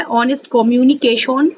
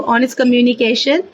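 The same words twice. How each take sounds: First: ऑनेस्ट कम्युनिकेशन with a Bengali accent, rounded o in कम्युनिकेशन; Bengali accent in Hindi. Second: Said in the usual way. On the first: Shown as a demonstration. (Bengali लहजे में) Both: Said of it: "Bengali, अ, accent में बोल रही हूँ".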